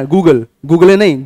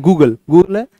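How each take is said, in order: First: Google said slowly, then a falling नहीं; slow corrective Google; slow correction. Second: Said in the usual way. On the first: Shown as a demonstration. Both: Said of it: "Google ना".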